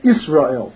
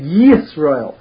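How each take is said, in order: First: The word starts directly with a vowel. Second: The word starts with a clear 'y' sound. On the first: The speaker calls it wrong. "it shouldn't look like an Aleph, like Israel" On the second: The speaker calls it right. "So you say Yisrael"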